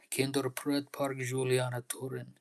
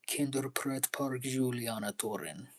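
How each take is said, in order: First: Breathy whispered plea to the park; pleading whisper. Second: Said in the usual way. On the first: Pretend. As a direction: whisper the name Kinderpret Park Juliana Torin like a prayer. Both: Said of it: "I'm just showing you how it makes me really feel".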